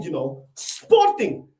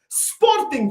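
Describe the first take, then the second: First: "Sporting" dragged out low and slow; low slow scorn on "Sporting"; deep mocking drawl. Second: "Sporting" thrown up high in disbelief; exasperated squeak on "Sporting"; incredulous high. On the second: Acted. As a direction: say "Sporting" with a high mocking yelp. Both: Mocking the rival club's name.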